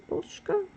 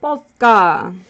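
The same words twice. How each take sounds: First: "Polska" as PUSH-ka, much higher and softer, asked; questioning pronunciation. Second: "Polska" as POS-ka, loud and falling; native pronunciation. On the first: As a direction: ask "Polska" like POOSH-ka, high and quiet. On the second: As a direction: announce "Polska" firmly, dropping the L. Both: Shown as a demonstration. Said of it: "pronounce it correctly".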